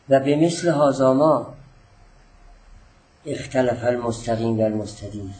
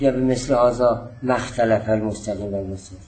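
First: A short pause comes right after 'ma'. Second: A short pause comes right after 'hadha'. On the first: 'Ma' joins the previous word and the sentence is affirmative. The speaker calls it right. "بعد از کلمه ما من یه ذره مکس کردم تا ما رو نافیه نگیرید" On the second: 'Ma' is taken as a negation of the verb. The speaker calls it wrong. "نگید"

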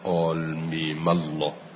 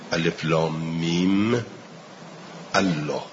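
First: Mim runs straight into Allah without a break. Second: Allah starts separately with a glottal stop. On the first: "ولی من میخونم" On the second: "ما قبل نمیچسبه شما باید قطع بخونید"

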